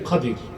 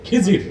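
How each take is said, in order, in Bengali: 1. নামটি Khadir বলা হয়, a ধ্বনি দিয়ে। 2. নামটি Khijir বলা হয়, i ধ্বনি দিয়ে। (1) "শুদ্ধ উচ্চারণ কি খাদির" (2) "আমাদের দেশের লোক বলে কি খিজির, এটা ভুল উচ্চারণ"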